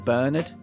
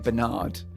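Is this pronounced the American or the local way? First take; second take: local; American. First: It is said in the speaker's local accent. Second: It is said in an American accent. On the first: "how we say Bernard" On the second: "people in America say Bernard"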